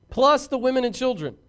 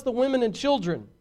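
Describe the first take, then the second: First: Plus hit hard and louder; stress on plus. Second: Said in the usual way. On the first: Shown as a demonstration. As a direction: lean on the word Plus.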